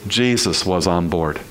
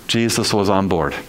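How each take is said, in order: Both takes have the same delivery.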